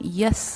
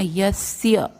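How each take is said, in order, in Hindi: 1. s के बाद y की ध्वनि नहीं बोली जाती। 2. s के बाद आने वाली y की ध्वनि से s जुड़ जाता है। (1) "यस नहीं बोलना" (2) "स्य"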